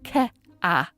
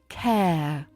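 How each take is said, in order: First: The vowel splits into two separate syllables. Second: The vowel glides smoothly in one syllable. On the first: The speaker calls it wrong. "as two distinct syllables rather than a smooth glide" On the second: The speaker calls it right. "paying attention to that smooth glide"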